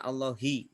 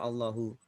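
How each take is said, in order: First: The word ends with an i vowel. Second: The word ends with a u vowel. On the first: The speaker calls it right. "Makanya dibaca Allahi" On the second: The speaker calls it wrong. "tidak boleh ... atau Allahu"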